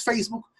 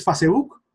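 First: "Facebook" with an ei in the first syllable; Spanish-style English loan. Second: "Facebook" in three loud syllables, fa-se-buk; letter-by-letter Spanish reading. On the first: Teacher challenging purists on borrowed words, feis-buk pronunciation. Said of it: "no vas a decir Facebook". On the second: Teacher mocking spelling-based pronunciation to purists, loud fa-se-buk. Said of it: "¿Qué dices?". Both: Shown as a demonstration.

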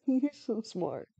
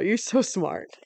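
First: Softer, slower, laughing through it; soft laughing praise. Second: Said in the usual way. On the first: Real, not acted. Praising the dog Toto, soft slow laughing coo.

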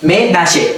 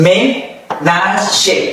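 First: Said in the usual way. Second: Ménager slowly, each syllable apart. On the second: Shown as a demonstration. Teacher models ménager for learners, syllable by syllable. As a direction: pause between the parts of ménager. Slow model, then joined up.

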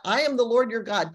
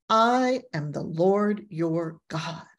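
First: Quick mention. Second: Solemn, slow divine declaration. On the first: Shown as a demonstration. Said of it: "It's got". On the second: Acted. Repeating God's declaration slowly.

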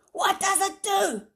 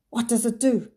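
First: Much higher, loud scream. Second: Hoarsely. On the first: Villain screams at the silent children. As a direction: shriek the demand. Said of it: "he screamed". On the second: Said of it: "he asked hoarsely". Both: A narrator's reading.

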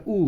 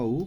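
First: Said in the usual way. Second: উ held a little longer; long vowel উ. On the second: Shown as a demonstration. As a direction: stretch out the vowel উ. (উ একটু লম্বা করে) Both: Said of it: "একটু লম্বা উ".

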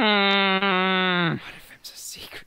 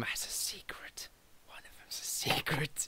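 First: Slow, drawn-out secret whisper. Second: Breathy secretive whisper. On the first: Slowly whispering the secret to his friends again. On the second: Whispering the secret to his friends. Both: Acted.

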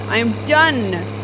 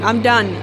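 First: Slow, with "done" drawn out and falling; stress on done. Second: Said in the usual way. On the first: Real, not acted. Player refusing to risk anything, slow final stress on "done". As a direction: separate the words and lean long on "done". Repeats it with emphasis.

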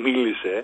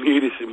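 The two takes are said the same way.

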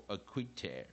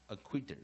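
First: "acquitter" ending in an open air sound. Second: "acquitter" ending in a plain er sound. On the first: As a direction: say "acquitter" with the last syllable rhyming with air. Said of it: "或者是air". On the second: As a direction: say "acquitter" with the last syllable as er. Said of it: "其实念起来有点像air". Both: Shown as a demonstration.

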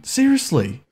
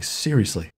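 First: High, indignant "Seriously" with a falling end; exasperated seriously. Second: Said in the usual way. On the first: Real, not acted. Player griping at the game, high indignant "Seriously". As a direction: complain it up in pitch. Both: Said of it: "I say seriously".

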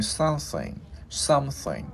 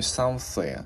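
First: "something" with the closing NG hummed out; ringing final NG. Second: "something" with air pushed through a TH, ending left open; tongue-between-teeth TH. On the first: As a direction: let the end of "something" resonate on NG. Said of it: "cái mình ngân cái chữ ngờ lên". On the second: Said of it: "đưa lưỡi qua giữa hai răng mình hỏi hơi". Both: Shown as a demonstration.

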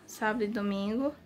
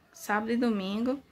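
Both takes have the same delivery.

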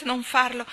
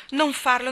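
First: Said in the usual way. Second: Higher and louder, desperate; more desperate plea. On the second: A narrator's reading. Anna begging Gilbert again, more desperate. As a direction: push the second plea up. Anna begs, repeating herself.

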